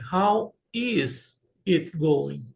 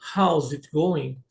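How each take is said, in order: First: The verb is said in full as a word. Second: The verb is contracted onto how.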